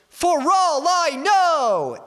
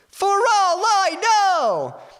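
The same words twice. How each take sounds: First: It is shouted in a middle register. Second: It is shouted in a high register. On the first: "more like a mid-range" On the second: "I'll shout it out kind of high first"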